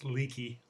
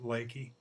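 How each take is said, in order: First: The first vowel sounds like 'ee'. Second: The first vowel sounds like 'ay'. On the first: It is read the way it is spelled. "if you look at it, it looks like it's leaky" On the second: It is said the way the locals say it. "they pronounce it Lakey"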